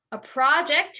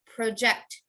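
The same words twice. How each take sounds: First: A PROJ-ect, start higher and firm; stress on first syllable. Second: Pro-JECT, the verb; stress on second syllable. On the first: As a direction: punch PRO in project. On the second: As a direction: stress the end of project. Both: Shown as a demonstration. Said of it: "that's a noun and verb".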